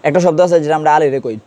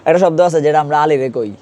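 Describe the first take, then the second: The two takes are said the same way.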